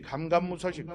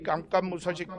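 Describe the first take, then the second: First: The word starts with a plain consonant. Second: The word starts with a tense consonant. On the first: The speaker calls it wrong. "말맛이 안 나잖아요" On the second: The speaker calls it right. "이렇게 발음을 해야 되는데"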